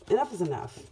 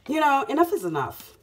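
First: Said in the usual way. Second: Loud, punchy, fed-up "enough is enough"; forceful declaration. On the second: Real, not acted. Tarot reader telling viewers she's had enough, loud and fed up. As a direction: slam down "enough is enough" like a final word.

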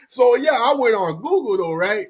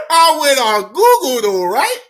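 First: Said in the usual way. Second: High, loud squeal through laughter; helpless amusement. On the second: Real, not acted. Storyteller confesses an embarrassing search, helplessly amused. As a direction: struggle to get it out, laughing.

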